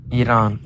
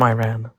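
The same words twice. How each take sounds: First: Iran said as ee-RAHN; native-style pronunciation. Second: Iran said as eye-RAN; Iran with a long I and flat a as in ran; American pronunciation. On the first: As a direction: repeat Iran with ee and open ah. Repeats corrected pronunciation of Iran. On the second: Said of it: "completely with American accent". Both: Real, not acted.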